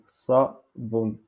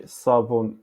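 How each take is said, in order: First: "Sabon" in two beats, sa... bon; syllabes séparées. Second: Said in the usual way. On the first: Shown as a demonstration. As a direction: break "Sabon" after sa. (« Sabon » découpé en sa... bon) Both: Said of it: "en darija, on dit".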